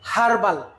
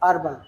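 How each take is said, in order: First: The word begins with an h sound. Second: The word begins with no h sound. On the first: "আমরা বলি কি কলিকাতা হারবাল" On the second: "এটা silent থাকার যে সমস্ত শব্দ"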